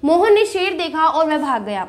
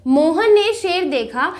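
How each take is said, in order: First: Said in the usual way. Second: Mohan ने शेर देखा drawn out slowly, then a stop; slow down and halt briefly at देखा; pause after देखा. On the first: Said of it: "देखो". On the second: Shown as a demonstration. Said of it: "यहाँ पर हम थोड़ी देर के लिए रुके".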